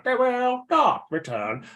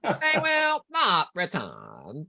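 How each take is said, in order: First: Slow, robotic Cyberman drone; monotone metal monster voice. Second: Very slow, droning robotic voice; Cyberman voice. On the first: Retold or imitated. Fan mimicking a Cyberman line, slow and robotic. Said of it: "they go / they're instantly mimicable". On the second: Pretend. Host showing off his practised Cyberman impression, slow drone. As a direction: intone it like a cold machine. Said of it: "I've been practicing cyber voices all day".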